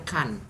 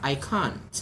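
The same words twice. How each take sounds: First: Can said with a short flat vowel; can as the contrast to the British can't; plain can, no O. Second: I can't with a slow, rounded British vowel in can't; can't with a touch of O, the British way. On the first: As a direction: show students can, not the vowel of can't. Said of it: "Tapi bukan can". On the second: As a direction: model the British can't slowly for students. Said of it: "bukan can, tapi can't". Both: Shown as a demonstration.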